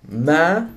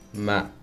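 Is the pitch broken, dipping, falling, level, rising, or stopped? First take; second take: rising; falling. First: The pitch rises from mid height. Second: The pitch starts low and falls. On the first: It means mother. "Tone number three is a mid-rising tone" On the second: It means but or however. "you start off pretty low and there's a falling tone"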